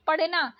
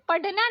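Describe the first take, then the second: First: पढ़ना said पड़ना with flapped ड़; correct flapped ड़. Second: पढ़ना said पड्ना with hard ड; wrong hard D. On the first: Teacher correcting learners, flapped पढ़ना. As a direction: flick the ड़ in पढ़ना. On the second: Teacher showing learners the mistake, hard-D पढ़ना. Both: Shown as a demonstration. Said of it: "नहीं".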